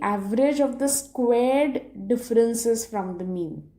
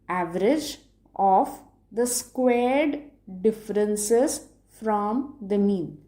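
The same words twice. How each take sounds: First: The phrase is spoken at a normal pace. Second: The phrase is spoken slowly and deliberately.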